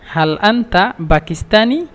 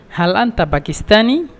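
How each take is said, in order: First: Slower teaching repeat; slowed-down model phrase. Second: Said in the usual way. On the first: Shown as a demonstration. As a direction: say it again slowly for learners.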